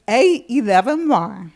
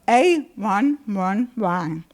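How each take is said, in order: First: It is read as the letters with eleven. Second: It is read with the digits one one. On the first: "One is A eleven Y" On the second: "Two is A one one Y"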